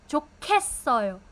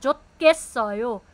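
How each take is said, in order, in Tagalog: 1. Ang katinig sa gitna ay malakas na aspirated na tunog. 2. Ang katinig sa gitna ay plain na tunog na parang T. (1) "Aspirated na siya" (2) "hindi siya 좋겠어요"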